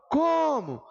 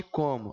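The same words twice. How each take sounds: First: COMO called high, with a long first CO; calling out, CO stretched. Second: Said in the usual way. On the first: Shown as a demonstration. Teacher calling the word to find its stress, COMO with CO drawn out high. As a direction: shout the word COMO, stretching CO and letting MO drop. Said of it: "Vejam que o som estica no co". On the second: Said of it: "Aí você fala".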